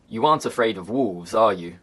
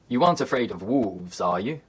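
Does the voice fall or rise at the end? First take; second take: fall; rise. First: The pitch falls on the tag at the end. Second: The pitch falls, then rises on the tag. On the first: The speaker is sure what the answer will be. "If the answer is certain, the intonation falls" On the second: The speaker is unsure what the answer will be. "the intonation falls, then rises if the answer is uncertain"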